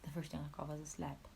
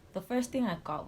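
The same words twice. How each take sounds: First: Soft repeat. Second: Loud emphasis. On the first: Repeating the slap to viewers, soft and stunned. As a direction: drop the same line to a hush. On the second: Telling viewers about the slap, said loudly. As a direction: punch the line out, louder. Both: Real, not acted.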